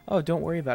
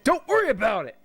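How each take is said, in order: First: It is said calmly, without yelling. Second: It is yelled loudly and forcefully.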